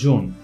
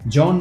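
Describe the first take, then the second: First: The vowel is a closed 'o' sound. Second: The vowel is an open 'aw' sound. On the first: The speaker calls it right. "সেটা হবে জোন" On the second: The speaker calls it wrong. "জন নয়"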